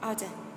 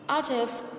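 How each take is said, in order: First: The words run together in a reduced form. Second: Each word is said separately and in full.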